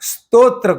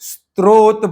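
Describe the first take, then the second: First: The r sound comes in the final syllable. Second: The r sound comes in the first syllable. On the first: The speaker calls it right. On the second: The speaker calls it wrong.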